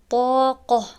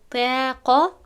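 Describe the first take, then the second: First: The long a is full and heavy. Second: The long a is thin and light. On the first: The speaker calls it right. "باید گفته شود" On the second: The speaker calls it wrong. "گفتن نمیشود"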